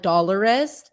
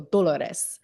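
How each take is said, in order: First: The name is said with an American accent. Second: The name is said with a Spanish accent. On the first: "like I'm American" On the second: "I have to go"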